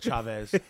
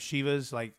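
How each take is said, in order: First: The name sounds like Chavez. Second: The name sounds like the soccer team Chivas. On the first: The speaker calls it right. "I meant Chavez" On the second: The speaker calls it wrong. "I said last time Chivas like the soccer team"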